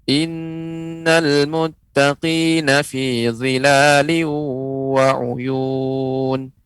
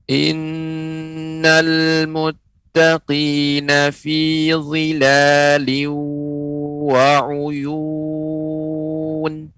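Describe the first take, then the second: First: It is recited at a medium pace. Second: It is recited at a slow pace. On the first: "Kemudian bacaan yang sedang" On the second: "Bacaan lambat atau tahqiq"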